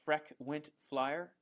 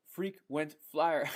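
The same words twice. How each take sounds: First: "Freck Wint Flyer" with short e in Freck; misread name. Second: "frequent flyer" sounded out slowly and loudly, long ee in frequent; corrected reading. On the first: Streamer reading a viewer's odd username, "Freck Wint Flyer" misread slowly. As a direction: slowly puzzle out "Freck Wint Flyer", first word rhyming with deck. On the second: Streamer finally getting a viewer's username, "frequent flyer" slow, loud, with long ee. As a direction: realize the pun and stretch out "frequent flyer", breaking into a laugh. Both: Real, not acted. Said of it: "Sorry, I said Freck".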